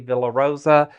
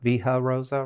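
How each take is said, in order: First: The L sound is pronounced in the first word. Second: The L sound is left out of the first word. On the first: The speaker calls it wrong. "I do say Villa Rosa" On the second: The speaker calls it right. "Because you don't pronounce the L's"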